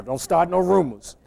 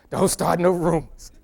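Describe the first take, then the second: First: Said in the usual way. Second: Don't start no rumors said through a laugh; playful laughing repeat of Don't start no rumors. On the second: Real, not acted.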